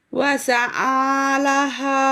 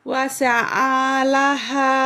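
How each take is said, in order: No difference in how they are said.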